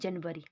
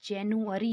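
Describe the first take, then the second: First: It begins 'jan-v' with a 'v' sound. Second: It begins 'jan-yoo' with a 'yoo' sound. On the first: This is how Hindi speakers usually say it. The speaker calls it wrong. "ना कि जनवरी" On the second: This is how it is said in English. The speaker calls it right. "English में इसका उच्चारण जो है जैनुअरी होता है"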